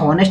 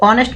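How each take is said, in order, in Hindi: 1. शब्द एक साफ़ h ध्वनि से शुरू होता है। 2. शब्द एक स्वर से शुरू होता है, कोई h ध्वनि नहीं है। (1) "ये आपका हॉनेस्ट नहीं पढ़ते" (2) "इसको ऑनेस्ट पढ़ते हैं यानी आ से शुरू होता है"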